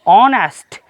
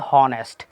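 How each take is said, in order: First: The word begins with a vowel, no h sound. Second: The word begins with an audible h sound. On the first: The speaker calls it right. "हमारा जो उच्चारण है वो o word से शुरू होता है" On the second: The speaker calls it wrong. "न कि"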